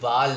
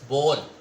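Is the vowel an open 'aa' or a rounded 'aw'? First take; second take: aa; aw. First: The vowel is an open, unrounded 'aa' sound. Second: The vowel is a rounded 'aw' sound. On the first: The speaker calls it wrong. "ये बाल नहीं है" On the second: The speaker calls it right. "It's बॉल। ... W की sound जो है वो produce करता है"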